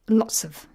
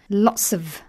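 First: The phrase is said lightly, without stress. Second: The phrase is said fully, with stress. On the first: "Lots of is the unstressed version" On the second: "Lots of is a stress version"

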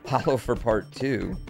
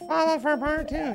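First: It is said in a natural voice. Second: It is said in a robotic Siri-like voice.

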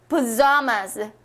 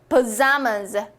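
No difference in how they are said.

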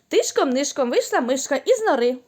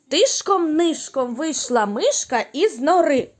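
First: The line is spoken at a very fast pace. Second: The line is spoken at a faster pace. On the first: "а тепер ще швидше" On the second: "а тепер швидше"

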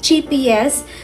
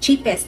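First: It is said with an extra middle syllable. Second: It is said with no extra middle syllable. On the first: The speaker calls it wrong. "nagtataka ko bakit ganun yung pagbigkas ko" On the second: The speaker calls it right. "dapat talaga ay cheapest ang sasabihin ko"

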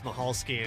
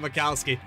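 First: The name has an H sound in the middle. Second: The name has a K sound in the middle. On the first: The speaker calls it right. "It's Mahalski, and we'll make sure that we get it right" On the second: The speaker calls it wrong. "all the years I've been calling him Mikalski"

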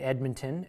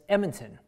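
First: The d sound in the middle is pronounced. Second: The d sound in the middle is dropped. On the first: The speaker calls it right. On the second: The speaker calls it wrong.

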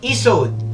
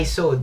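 First: The name begins with an 'ee' sound. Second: The name begins with an 'eye' sound. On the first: The speaker calls it right. "ESOD ang pronunciation sa product na to" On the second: The speaker calls it wrong. "hindi siya ISOD eh"

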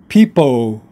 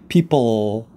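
First: The final L is dropped with the tongue left idle. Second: The final L is fully pronounced with the tongue raised. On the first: The speaker calls it wrong. "to avoid saying that L, it will come out, it will sound like people" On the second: The speaker calls it right. "your tongue should be going up and touching the roof of your mouth, right behind your teeth. L"

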